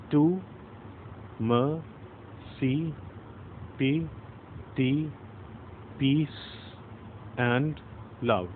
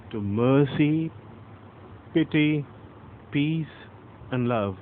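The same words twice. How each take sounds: First: Slow, soft, each word set apart with pauses; counting syllables slowly. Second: "to" light, "mercy" slow with MER stressed; iambic stress. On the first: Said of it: "So let's count". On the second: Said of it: "mer is stressed". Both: Shown as a demonstration.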